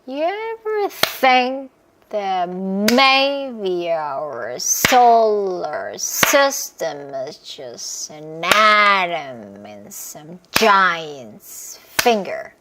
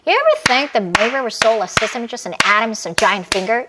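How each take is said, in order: First: It is said slowly. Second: It is said fast.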